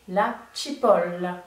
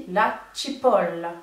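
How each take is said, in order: No difference in how they are said.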